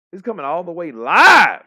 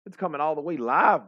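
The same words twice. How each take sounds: First: Excited hype-man call; hyped shout. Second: Said in the usual way. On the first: Real, not acted. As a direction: build to a huge shout on "live". Repeats hype phrase, shouted.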